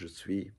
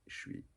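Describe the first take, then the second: First: Both syllables are said fully and separately. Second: The two syllables merge into one short syllable. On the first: This is the form learned from textbooks. "you've learned je suis" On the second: This is how French people actually say it. "They say suis, suis"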